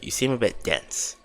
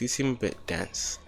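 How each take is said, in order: First: It is said in a put-on character voice. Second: It is said in the reader's ordinary voice.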